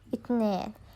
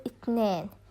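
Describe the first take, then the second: Both takes have the same delivery.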